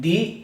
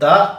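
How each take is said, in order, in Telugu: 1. ఈ పదం దీర్ఘ 'ee' అచ్చుతో ముగుస్తుంది. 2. ఈ పదం హ్రస్వ 'uh' అచ్చుతో ముగుస్తుంది. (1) "టిహెచ్ఈని ది అని ఎప్పుడు పలకాలి" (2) "ద అని ఎప్పుడు పలకాలి?"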